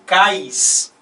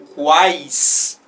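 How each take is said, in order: First: It is said without a w sound after k. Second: It is said with a w sound after k. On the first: It would contain only a diphthong. "se eu não pronunciasse o u" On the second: It contains a triphthong. "Como ele é pronunciado"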